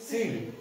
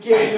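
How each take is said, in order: First: The word begins with an s sound. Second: The word begins with a k sound. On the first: The speaker calls it right. "पण या ठिकाणी सील" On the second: The speaker calls it wrong. "कोणी केळ करल"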